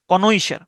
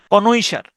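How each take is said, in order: Both takes have the same delivery.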